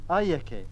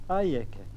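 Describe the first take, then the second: No difference in how they are said.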